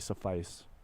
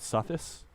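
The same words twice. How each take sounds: First: The word is pronounced in its standard dictionary form. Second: The word is pronounced the way it looks written. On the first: The speaker calls it right. "finally, I say suffice" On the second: The speaker calls it wrong. "I always said it suffice because that's how I read it"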